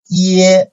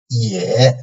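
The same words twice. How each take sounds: First: The pitch stays high and level. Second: The pitch dips low, then rises slightly.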